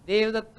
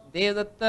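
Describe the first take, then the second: First: The final vowel is said closed. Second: The same.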